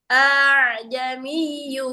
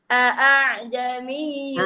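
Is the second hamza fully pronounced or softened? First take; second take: softened; fully. First: The second hamza is softened toward a long vowel. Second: The second hamza is pronounced fully and crisply. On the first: "tapi kalau dalam qiraah Imam Asim bacanya" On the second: "A kan harusnya gini"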